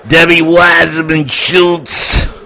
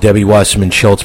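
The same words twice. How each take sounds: First: The name is said in a Brooklyn accent. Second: The name is said in a neutral accent.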